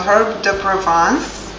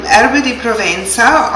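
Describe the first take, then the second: First: "herbe de Provence" in an amateur French accent; horrible French accent. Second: HERBE DI PROVENZA said the Italian way, ending "ven-sa"; Italian pronunciation. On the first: Cook giving the herb's other name, rough French accent. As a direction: attempt a French accent, ending "pro-VAHNS". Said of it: "pardon my horrible French accent". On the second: Cook naming an ingredient for viewers, Italian pronunciation. Gives the herb's Italian name first. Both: Shown as a demonstration.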